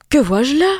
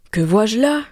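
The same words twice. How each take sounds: First: A loud, higher, dismayed question; shocked outcry. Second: A rising, amazed question; astonished. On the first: Mother seeing the snakes, shocked. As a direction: cry it out in alarm. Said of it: "s'écria la mère". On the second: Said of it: "dit sa mère tout étonnée". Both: A narrator's reading.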